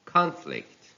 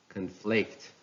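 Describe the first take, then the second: First: "conflict" as CON-flict, high start; stress on first syllable. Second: "conflict" as con-FLICT; stress on second syllable. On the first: Teacher reading a noun, "conflict" stressed on CON. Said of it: "stress on the first syllable". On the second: Teacher reading a verb, "conflict" stressed on FLICT. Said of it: "stress falls on the second syllable". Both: Shown as a demonstration.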